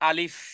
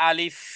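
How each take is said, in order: The two takes are said the same way.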